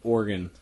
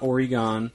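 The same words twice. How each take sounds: First: It sounds like the word 'organ'. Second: It does not sound like the word 'organ'. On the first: The speaker calls it right. "like your organs" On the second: The speaker calls it wrong. "It's not Oregon"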